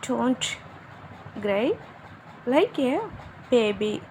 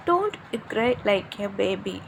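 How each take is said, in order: First: Put-on "Don't", "cry", "like a", "baby", each set apart by long pauses; word by word. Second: Said in the usual way. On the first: Shown as a demonstration. Teacher modelling for learners how to scold crying, word by word with long pauses. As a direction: dictate "Don't cry like a baby" in small separate pieces.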